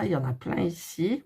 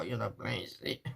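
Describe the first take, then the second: First: Said in the usual way. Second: Much softer, lower aside; quiet lower mutter to herself; murmured to herself. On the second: Real, not acted. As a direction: repeat it under your breath.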